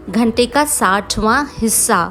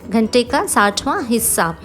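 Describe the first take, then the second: The two takes are said the same way.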